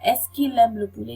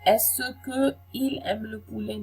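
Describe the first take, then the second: First: 'Que' and 'il' run together into one syllable. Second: 'Que' and 'il' are said as separate words. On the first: The speaker calls it right. "इकट्ठा इसको बोला जाता है" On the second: The speaker calls it wrong. "नहीं होता"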